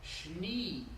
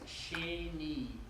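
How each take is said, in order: First: No vowel is heard between sh and n. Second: A clear e vowel follows the sh. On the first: The speaker calls it wrong. "Sorry, I reversed Sere for Shva" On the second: The speaker calls it right. "It's Sheni. She is a long A"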